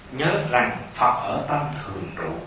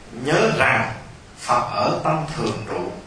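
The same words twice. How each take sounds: Both takes have the same delivery.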